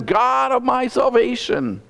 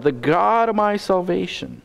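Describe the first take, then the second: First: "God of my salvation" slow, much higher, each word weighted; emphatic. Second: Said in the usual way. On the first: Retold or imitated. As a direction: lean hard on "God of my salvation". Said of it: "He is emphatically using the name". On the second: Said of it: "emphatically using the name".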